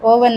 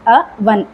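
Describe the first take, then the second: First: The first vowel is a long 'oh' sound. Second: The first vowel is a short 'uh' sound. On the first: The speaker calls it wrong. "ಅದು ಅವನ್ ಅಲ್ಲ ಓವನ್ ಅಂತ ಹೇಳಿ" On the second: The speaker calls it right. "Actually pronounce ಮಾಡುವಂಥದ್ದು ಅವನ್ ಅಂತಲೇ"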